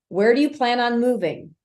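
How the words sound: The pitch falls at the end of the question. "That's a downswing"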